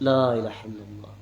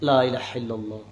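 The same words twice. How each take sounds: The two takes are said the same way.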